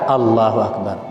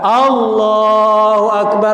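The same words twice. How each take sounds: First: It is said quietly, just loud enough to hear. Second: It is said loudly, like calling to a congregation. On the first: The person is following in the prayer. The speaker calls it right. "Maka hanya sekedar Allahu Akbar" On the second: The person acts as if leading the prayer. The speaker calls it wrong. "Jangan pula kuat-kuat dia Allahu Akbar macam jadi imam"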